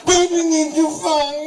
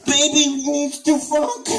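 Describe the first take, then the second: First: Put-on higher, pushier baby-talk with stress on baby; stronger baby voice. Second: Put-on slow, high babyish plea; plain baby voice take. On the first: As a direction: lean harder on baby. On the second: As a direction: beg it slowly. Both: Repeated begging in baby voice.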